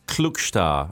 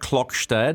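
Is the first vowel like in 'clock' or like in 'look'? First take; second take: look; clock. First: The first vowel sounds like the vowel in 'look'. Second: The first vowel sounds like the vowel in 'clock'. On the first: The speaker calls it right. "that's the correct pronunciation" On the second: The speaker calls it wrong. "Not Klokstad"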